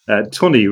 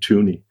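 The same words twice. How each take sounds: First: The name rhymes with money. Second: The name does not rhyme with money. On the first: The speaker calls it right. "Tooney rhymes with money, funny" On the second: The speaker calls it wrong. "You pronounce Tooney like Mike Tyson does"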